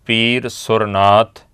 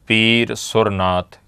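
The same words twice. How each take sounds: Both takes have the same delivery.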